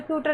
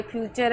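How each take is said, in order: First: फ्यूचर said as fyoo-tur with a hard retroflex T; wrong reading. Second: फ्यूचर said fyoo-cher with a clear CH; correct reading. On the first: Teacher showing the misreading: फ्यूचर with hard T. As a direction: read फ्यूचर with T instead of CH. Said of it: "अब इसको फ्यूचर, फ्यूचर नहीं पढ़ना है". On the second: Teacher giving the right way: फ्यूचर with CH. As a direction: say फ्यूचर with CH, not T. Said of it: "नहीं पढ़ना है, ये फ्यूचर है". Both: Shown as a demonstration.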